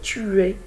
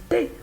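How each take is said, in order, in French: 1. Les deux mots se prononcent en entier, en deux syllabes. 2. La voyelle de tu tombe, une seule syllabe. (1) "on n'a pas dit tu es" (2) "on a dit t'es"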